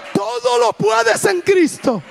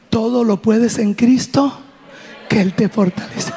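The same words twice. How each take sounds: First: High, drawn-out rallying cry; impassioned exhortation. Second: Steady encouragement. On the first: Mother urges Priscila to walk, impassioned high cry. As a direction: imitate a mother crying out her faith, slow and high. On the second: Mother to daughter crying from pain, steady reassurance. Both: Retold or imitated.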